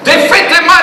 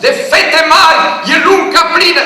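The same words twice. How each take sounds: First: Shouted high and loud; full voice recital. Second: Bellowed high and loud, full projection; full voice recital. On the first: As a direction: belt it across the field. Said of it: "în grâu, să zici". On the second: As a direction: belt the verse across the wheat field. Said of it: "Pot să-mi fac și vocea?". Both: Retold or imitated.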